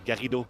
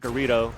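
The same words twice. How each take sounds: First: The name is said with a French pronunciation. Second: The name is said with an American pronunciation. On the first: The speaker calls it right. "especially I'm a French guy" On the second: The speaker calls it wrong. "You said his name like an American"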